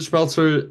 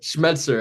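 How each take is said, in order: First: The name is said with an L sound. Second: The name is said with a T sound. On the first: The speaker calls it wrong. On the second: The speaker calls it right.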